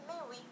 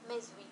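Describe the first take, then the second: First: The words join with no z sound. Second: A z sound links the two words. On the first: The speaker calls it right. "نقول ميوي" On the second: The speaker calls it wrong. "لا يمكننا ان نقول ميزوي"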